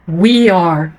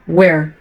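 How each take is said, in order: First: We and are are said as separate words. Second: We and are merge into one syllable.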